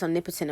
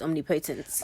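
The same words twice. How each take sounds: First: It uses the pronunciation common among white speakers. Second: It uses the pronunciation heard in church. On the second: "when I hear it in church"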